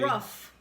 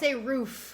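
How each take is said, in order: First: The vowel is short, like 'rough'. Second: The vowel is long, like 'food'. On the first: This imitates how someone else says it. The speaker calls it wrong. "not rough" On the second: This is the speaker's own way of saying it. The speaker calls it right. "I say roof"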